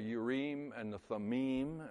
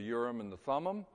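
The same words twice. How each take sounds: First: The names get a more careful, exact pronunciation. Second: The names get their common everyday pronunciation. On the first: This is the more precise form. "if you want to get particular with the pronunciation" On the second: This is how most people say it. "what are commonly referred to as"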